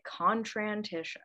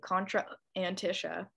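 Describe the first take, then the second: First: The two vowels merge smoothly without a break. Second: A glottal stop separates the two vowels. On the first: The speaker calls it right. "there's no point for the glottal stop between the two A's. Just make it Contrantisha" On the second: The speaker calls it wrong. "You don't have to do Contra Antisha"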